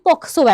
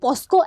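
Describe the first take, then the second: First: The middle consonants are said as 'k' then 's'. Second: The middle consonants are said as 's' then 'k'. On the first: The speaker calls it right. "It is the पॉक्सो act" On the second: The speaker calls it wrong. "ये पॉस्को act नहीं है"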